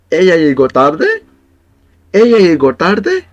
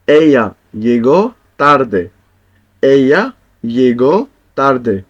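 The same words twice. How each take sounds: First: "tarde" rising high and a bit louder; surprised question, rise on "tarde"; rising question tune. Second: Said in the usual way. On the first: Shown as a demonstration. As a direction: ask it with a climbing "tarde". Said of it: "same words, rising tune". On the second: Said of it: "statement then question demo".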